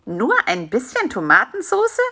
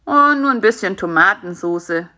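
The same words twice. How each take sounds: First: "bisschen" swooping up in disbelief, rising end on "Tomatensoße"; astonished query, "bisschen" stressed with a leap in pitch; incredulous echo question. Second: Said in the usual way. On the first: Acted. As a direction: question "Nur ein bisschen" as if it can't be true. Fly echoes spider in disbelief.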